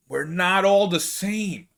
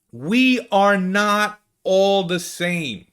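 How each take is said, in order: First: Said in the usual way. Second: Slow, high, weighted "We", "are", "not"; emphatic restatement. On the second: Real, not acted. Creator insisting Italians differ, "We are not" stressed slowly.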